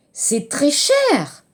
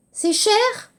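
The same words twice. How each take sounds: First: Slow "C'est très cher." with a firm fall on "cher"; insistent answer. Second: "C'est cher?" with a high rising question tune on "cher"; question intonation. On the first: Teacher models the insistent reply for students, slow and falling. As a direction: lean on it, slow and certain. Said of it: "l'interrogation d'insistance". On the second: Teacher models a surprised question for students, rising high. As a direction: ask it, voice climbing high at the end. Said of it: "L'intonation interrogative". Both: Shown as a demonstration.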